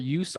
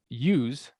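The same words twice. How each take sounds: First: The word ends with a hissing s sound. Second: The word ends with a buzzing z sound. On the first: "we use the S" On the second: "then the voiced S, the Z, with the second one"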